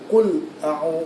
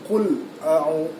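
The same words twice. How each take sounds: No difference in how they are said.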